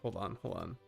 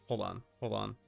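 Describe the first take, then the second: No difference in how they are said.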